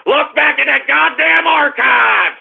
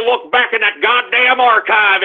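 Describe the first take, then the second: First: A host yelling at his doubters; taunting shout. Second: Said in the usual way. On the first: Acted. Repeats the challenge as a shout.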